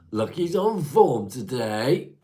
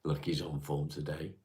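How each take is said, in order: First: Higher, louder, slow drawn-out proclamation; playful sing-song repeat. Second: Said in the usual way. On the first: Acted. Streamer teases a chat regular with a slow, loud, high repeat. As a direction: stretch it out grandly to tease.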